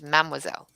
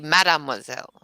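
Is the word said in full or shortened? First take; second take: shortened; full. First: The word is shortened by one syllable. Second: The word is said in full, all syllables. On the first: "It's Mademoiselle" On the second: "you don't have to actually say Mademoiselle"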